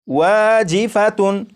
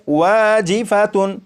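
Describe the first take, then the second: First: The word ends with a full 'tun' sound. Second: The word ends with a full 'tun' sound.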